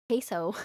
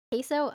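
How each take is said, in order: First: "Queso." stated with a falling end; settled falling tune. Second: "Queso?" asked with a rising end; questioning tune. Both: Shown as a demonstration.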